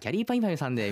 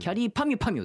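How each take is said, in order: First: The name is said in a smooth narration flow. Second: The name is said with strong, deliberate emphasis.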